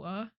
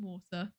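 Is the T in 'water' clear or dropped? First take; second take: dropped; clear. First: The T in the middle is dropped. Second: The T in the middle is clearly pronounced. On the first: The speaker calls it wrong. "I am British" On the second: The speaker calls it right. "normally I try my best"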